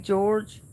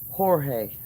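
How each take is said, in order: First: The name is said like English George. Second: The name is said with a Spanish pronunciation. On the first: The speaker calls it wrong. "I don't know why I say George" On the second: The speaker calls it right. "It says Jorge"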